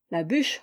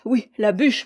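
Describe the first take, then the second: First: Said in the usual way. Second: "la bûche" louder and rising; "oui, la bûche" with insistent emphasis; insistent repeat. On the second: A narrator's reading. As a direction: hammer "bûche" home.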